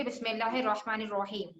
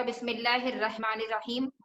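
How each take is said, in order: First: "बिस्मिल्लाहिर्रहमानिर्रहीम" with rounded "ro" in both last words; correct heavy r. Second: "बिस्मिल्लाहिर्रहमानिर्रहीम" with thin Urdu "re"; wrong light r. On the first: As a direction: say "बिस्मिल्लाहिर्रहमानिर्रहीम" with thick Arabic r. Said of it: "निस्बत इसके कि". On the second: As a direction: rattle off "बिस्मिल्लाहिर्रहमानिर्रहीम" with light "ra" vowels. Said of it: "अगर हम रे पढ़ेंगे". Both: Shown as a demonstration.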